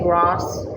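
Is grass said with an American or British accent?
British. It is said with a British accent. The listeners do not understand the word.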